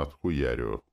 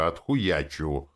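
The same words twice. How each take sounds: First: "отхуярю" read flat and falling, as the text wrongly writes it; quoting "отхуярю" the wrong way; misused word. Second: "отхуячу" slowed and stressed as the right word; teaching the proper "отхуячу"; correct form. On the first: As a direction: say "отхуярю" exactly as printed, low and falling. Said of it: "Так и написано". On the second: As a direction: say "а отхуячу" slowly, leaning on "отхуячу". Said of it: "Она должна была написать". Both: Shown as a demonstration.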